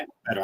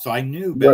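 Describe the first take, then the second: First: Softer, to himself, "better" dropped away; quiet repeat. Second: Louder, firm "better" landing on a fall; emphatic. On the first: Echoing his own words to a friend, much softer. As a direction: murmur it back to yourself. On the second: Telling a friend about the casino, emphatic and louder. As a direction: stamp down on "better". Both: Real, not acted. Regretting casino win turned loss.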